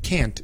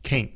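First: It is said with a northern US vowel. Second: It is said with a southern US vowel. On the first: "Pero lo cortamos para can't" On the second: "En el sur, a veces ellos dicen can't"

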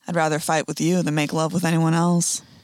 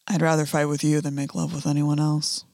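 First: It is said in a Southern accent. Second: It is said with a snarling mouth.

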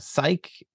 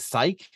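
First: The name has two syllables, ending like Nike. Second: The name has one syllable, rhyming with bike. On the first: The speaker calls it right. "not like Nike" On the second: The speaker calls it wrong. "he kept pronouncing Psyche as Psyche ... but like bike"

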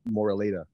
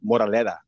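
First: The name is said without Filipino pronunciation. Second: The name is said with Filipino pronunciation.

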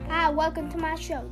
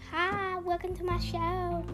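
First: It is said in a plain, ordinary voice. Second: It is said in the theme-song voice.

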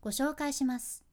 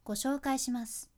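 No difference in how they are said.

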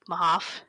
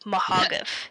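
First: The surname is said in a plain, blunt way. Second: The surname is said in a fancy, dressed-up way. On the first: The crude joke is obvious. "So it's like Jack Mahoff" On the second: The crude joke is hidden. "She pronounced it like Mahogoff. ... She churched it up"

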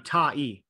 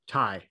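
First: The vowels are split into two separate syllables. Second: The vowels blend into a single gliding syllable. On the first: "it's actually two sounds" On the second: "but it's a diphthong"

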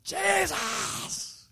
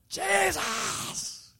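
First: It is cried in a rough, raspy voice. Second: The same.

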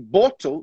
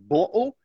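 First: The middle consonant is a clear t sound. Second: The middle consonant is a glottal stop. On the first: "No inglês britânico, a gente pronuncia bottle of water" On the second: "o que a gente chama de glottal T. Eles cortam e fazem uma pausa"

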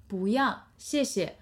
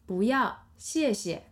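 Both takes have the same delivery.

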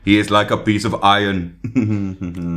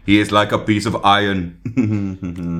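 First: It is said in an Austrian accent. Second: It is said in an Austrian accent.

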